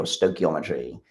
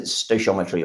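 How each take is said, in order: First: "stoichiometry" with K in the middle, stoy-kee-ometry; hard K pronunciation. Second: "stoichiometry" with SH in the middle, stoy-shometry; soft SH pronunciation. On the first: Lecturer offering the other pronunciation, "stoichiometry" with a hard K. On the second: Lecturer offering one pronunciation, "stoichiometry" with a soft SH. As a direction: say "stoichiometry" as stoy-SHOM-etry. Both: Shown as a demonstration. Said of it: "depending on how you pronounce it".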